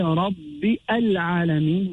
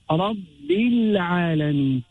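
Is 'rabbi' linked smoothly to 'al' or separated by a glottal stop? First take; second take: glottal stop; linked. First: A glottal catch separates rabbi from al. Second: Rabbi runs straight into l with no catch. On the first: The speaker calls it wrong. "so we don't say Rabbi al-alameen" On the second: The speaker calls it right. "We go through the alif there"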